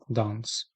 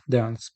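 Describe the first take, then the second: First: It is said with a British accent. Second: It is said with an American accent. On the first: "британський" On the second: "американський варіант"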